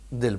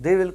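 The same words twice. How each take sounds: First: "دل" for they'll, one syllable; contracted pronunciation. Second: Said in the usual way. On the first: Shown as a demonstration. Teacher showing how they will is spoken, contracted pronunciation. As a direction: squeeze they and will into a single "دل". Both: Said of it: "اس کو دل بولتے ہیں".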